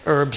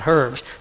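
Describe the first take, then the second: First: The word starts with a vowel, no h. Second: The word starts with an audible h sound. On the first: This is how people in the States say it. "back there they say herbs" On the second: This is how the local audience says it. "and not herbs"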